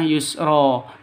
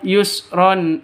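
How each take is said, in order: First: The word ends on an open vowel, no n. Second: The word ends with an added n sound. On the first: The reciter stops at the end of the verse. "Kalau berhenti dibaca yusro" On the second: The reciter continues into the next verse. "Kalau tidak berhenti lanjut ke ayat berikutnya yaitu tetap yusron"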